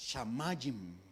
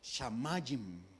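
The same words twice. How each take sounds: First: The stress falls on the second syllable. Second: The same.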